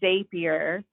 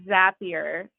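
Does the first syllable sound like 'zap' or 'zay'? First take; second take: zay; zap. First: The first syllable sounds like 'zay'. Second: The first syllable sounds like 'zap'. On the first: The speaker calls it wrong. "not Zapier" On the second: The speaker calls it right. "we talk about Zap, so that should give you a clue as to how we should pronounce it"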